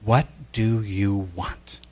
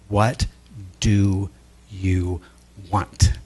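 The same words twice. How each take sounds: First: It is said at normal speed. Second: It is said very slowly.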